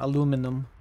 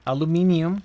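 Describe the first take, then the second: First: The word ends with an '-inum' sound. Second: The word ends with an '-inium' sound. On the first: This form is further from the Turkish word. "Rather than aluminum" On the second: This form is closer to the Turkish word. "That's how we say it in Turkish as well"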